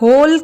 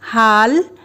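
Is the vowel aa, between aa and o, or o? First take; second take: o; aa. First: The vowel is a closed o sound. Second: The vowel is an open aa sound. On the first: "हाल या होल कहना अनुचित होगा" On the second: "हाल या होल कहना अनुचित होगा"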